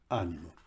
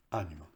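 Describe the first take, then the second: No difference in how they are said.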